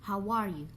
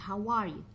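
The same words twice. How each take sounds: The two takes are said the same way.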